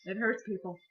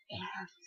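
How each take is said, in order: First: Said in the usual way. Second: Softer, half-whispered repeat; mock whisper. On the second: Shown as a demonstration. Vlogger to her viewers, mock-tragic whisper. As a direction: sigh it out dramatically, barely voiced. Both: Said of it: "Post-concert depression hurts".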